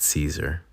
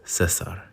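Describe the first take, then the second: First: The name is said with an American pronunciation. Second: The name is said with its native pronunciation. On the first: The speaker calls it wrong. "Americanized it Caesar" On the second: The speaker calls it right. "he was teaching me how to say it, and it's Cesar"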